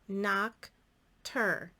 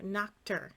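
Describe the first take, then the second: First: The two syllables are separated by a gap. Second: The two syllables are blended without a gap.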